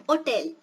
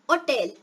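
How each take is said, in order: Both takes have the same delivery.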